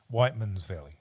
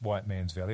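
First: Whiteman is run together as one word. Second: White and man are said as two separate words. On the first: The speaker calls it right. "It's pronounced Whiteman's Valley" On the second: The speaker calls it wrong.

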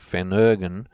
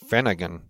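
First: It is said with the Australian pronunciation. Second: It is said with the American pronunciation. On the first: "they even don't pronounce that the same way as we do" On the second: "They call it Phenergan"

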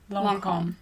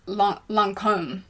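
First: The name is pronounced the French way. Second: The name is pronounced the American way. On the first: The speaker calls it right. "Lara from Lancome taught us that it's Lancome" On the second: The speaker calls it wrong. "I know that Americans do say Lancome"

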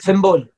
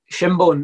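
First: The first sound is lisped, like th. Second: The first sound is a clear sh sound.

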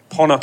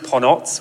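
First: The word ends with a k sound. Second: The word ends with a ts sound. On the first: This is the Japanese way of saying the name. "Ponoc is how the Japanese pronounce the word" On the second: This is the original Croatian way of saying the name. "It's a Croatian word that is pronounced Ponots"

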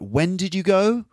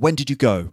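First: The pitch rises at the end of the question. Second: The pitch falls at the end of the question. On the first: Asking again for something already answered. "can be delivered with a different sort of intonation" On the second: A genuine first-time question. "you'll have a certain type of intonation"

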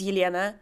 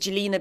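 First: The name begins with a Y sound. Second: The name begins with a J sound. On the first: The original form of the Russian name. "But actually, it's Yelena. It's a Russian name" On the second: A simpler form used when introducing oneself. "I always introduce myself as Jelena because it's easier"

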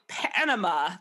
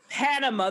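First: The voice is croaky and rough. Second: The voice is clear and smooth. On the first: The speaker calls it wrong. "I'll say that again without me croaking" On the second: The speaker calls it right. "without me croaking"

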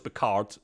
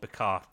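First: The final D is clearly pronounced. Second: The final D is barely pronounced. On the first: The speaker calls it wrong. "Everyone goes Picard. It's probably not" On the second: The speaker calls it right. "You barely pronounce the D. That's the way the French do it"

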